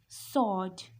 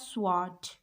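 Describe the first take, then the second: First: The W sound is silent. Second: The W sound is pronounced. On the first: The speaker calls it right. "The W is silent here. This is sword" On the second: The speaker calls it wrong. "This is not sword or anything else"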